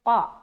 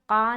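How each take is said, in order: First: The qa is said thick and heavy. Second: The qa is said thin and light. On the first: The speaker calls it right. "इसे मोटे तरीक़े से अदा करना" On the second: The speaker calls it wrong. "यहाँ पर क़ा नहीं बोलना"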